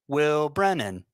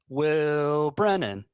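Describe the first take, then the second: First: The first syllable is kept short. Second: The first syllable is drawn out long. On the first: This is the newer version heard in childhood. "the version of it I heard" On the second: This is the older version. "they elongate the first syllable there"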